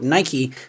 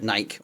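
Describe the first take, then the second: First: It is said the American way. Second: It is said the British way. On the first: The speaker calls it right. "in America it's called Nike" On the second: The speaker calls it wrong. "in the U K we call it Nike"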